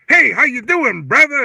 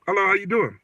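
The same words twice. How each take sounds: First: Loud, high mock-chummy hail; hammed-up customer trying slang; imitated slang greeting. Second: Said in the usual way. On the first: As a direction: overdo the brother talk, big and loud. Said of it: "trying to use all this slang". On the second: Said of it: "I could talk normal".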